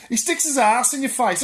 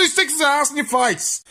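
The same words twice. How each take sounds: First: Said in the usual way. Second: Louder emphatic repeat. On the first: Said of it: "I say he sticks his ass in your face". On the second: Shown as a demonstration. Ranting to viewers about cats, louder emphatic repeat. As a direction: say it again, louder, driving it home. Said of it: "I say".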